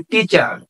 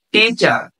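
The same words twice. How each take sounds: First: Said in the usual way. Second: টিচার broken into two parts, টি and চার; teacher demonstrating the two beats of টিচার; split into syllables. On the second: Shown as a demonstration. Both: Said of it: "দুইটা অংশে বিভক্ত হয়েছে".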